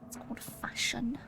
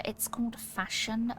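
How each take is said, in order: First: A breathy unvoiced whisper of it's called fashion. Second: Said in the usual way. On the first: Whispering the joke to herself again. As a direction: murmur it like a secret aside. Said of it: "whispered repeat". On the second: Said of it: "plain take before whisper".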